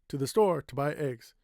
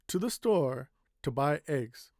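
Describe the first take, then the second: First: It is said quickly with no clear pause. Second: It is said slowly with a pause after store. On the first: "I can say quickly" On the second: "You notice I stopped a little bit here"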